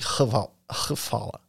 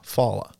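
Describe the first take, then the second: First: The word begins with an H-V sound. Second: The word begins with an F sound. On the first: This is how native speakers say it. "And they say like hvala" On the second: This is the easier learner pronunciation. "say it like an F"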